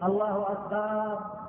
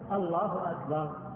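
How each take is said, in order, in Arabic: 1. الحركة بعد الباء ممدودة وطويلة. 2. الحركة بعد الباء تبقى قصيرة. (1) "لا يمد بالباء، فلا يقول الله أكبر، لا يجوز هذا" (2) "من غير أن يمد الهمزة في أول أو الباء في وسطه"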